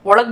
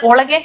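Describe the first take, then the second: First: ओळग ending on a hard g; colloquial short form. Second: Said in the usual way. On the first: Shown as a demonstration. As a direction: drop the final e so ओळग is "olag". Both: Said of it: "ओळगे ओळग बोलते हैं".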